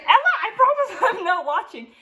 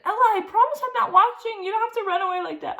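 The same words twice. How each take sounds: First: High, laughing mock teacher voice; imitating the ballet teacher coaxing her with a laugh. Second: High mock teacher whine, faster toward the end; imitating the teacher pleading after she ran off. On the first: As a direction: gently tease the shy student into dancing. Teacher voiced, coaxing shy student. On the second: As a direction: plead with the runaway student.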